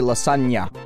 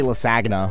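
First: The 'gn' is said as a 'ny' sound. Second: The 'gn' is said as hard G plus N. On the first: The speaker calls it right. "It's the same reason why you say lasagna" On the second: The speaker calls it wrong. "You don't say lasagna"

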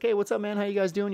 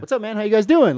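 First: It is said quietly. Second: It is said louder.

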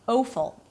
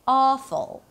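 First: The first vowel glides toward a W sound. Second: The first vowel stays steady without gliding. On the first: The speaker calls it wrong. "and not" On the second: The speaker calls it right. "it is not a changing vowel"

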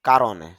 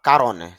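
No difference in how they are said.

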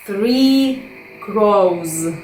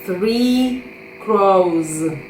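The two takes are said the same way.

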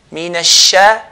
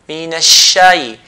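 The two takes are said the same way.

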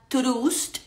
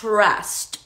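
First: The vowel is a Spanish-style 'oo' sound. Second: The vowel is a short 'uh' sound. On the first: The speaker calls it wrong. "esa U no va a sonar como U, no va a sonar trust" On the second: The speaker calls it right. "La palabra confianza se dice en inglés T-R-U-S-T"

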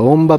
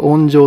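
First: The word is read onba, ending in ba. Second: The word is read onjou, ending in jou. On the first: "中には音場と読む方がいらっしゃって" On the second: "私は音場って読むんですが"

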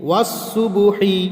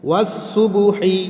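The two takes are said the same way.

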